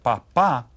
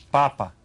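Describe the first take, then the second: First: "papa" as pa-PA, the final syllable stressed; stress on last syllable. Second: "Papa" as PA-pa, the first syllable stressed. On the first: Teacher contrasting father with potato, stress on last syllable. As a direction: lean on the second syllable of "papa". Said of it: "with an accent here is father". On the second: Teacher giving the word for potato, stress on first syllable. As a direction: hit the first syllable of "Papa", drop the second. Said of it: "not to call your dad a potato". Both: Shown as a demonstration.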